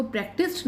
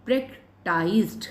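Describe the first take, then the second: First: "प्रैक्टिस्ड" with short i, "prak-tist"; wrong pronunciation. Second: "प्रैक्टिस्ड" with long "eye" vowel, "prak-tyzed"; taught pronunciation. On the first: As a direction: say "प्रैक्टिस्ड" ending like "list", not "iced". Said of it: "आप इसको प्रैक्टिस्ड नहीं पढ़ेंगे". ("प्रैक्टिस्ड" में छोटी इ, "प्रैक-टिस्ट") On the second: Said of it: "आप इसको क्या रीड करेंगे?". ("प्रैक्टिस्ड" में आइ की ध्वनि, "प्रैक-टाइज़्ड") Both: Shown as a demonstration.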